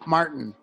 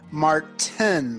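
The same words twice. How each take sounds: First: The T in the middle is dropped. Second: The T in the middle is clearly pronounced. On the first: "They don't say the T" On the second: "my last name is Martin"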